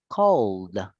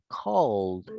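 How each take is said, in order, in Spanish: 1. La palabra termina en sonido D. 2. La palabra termina en sonido D.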